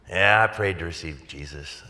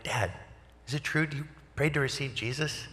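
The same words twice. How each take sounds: First: Mildly reluctant retold dad, sinking from the first word; unconvinced admission. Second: High, soft, incredulous questioning; hopeful disbelief. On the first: Dad answering son's excited question, mildly unconvinced admission. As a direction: admit it without much conviction. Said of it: "Why do you say it like that?". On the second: Retold or imitated. Son phoning dad about his prayer, hopeful disbelief. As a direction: lift it high and soft, rising at the end.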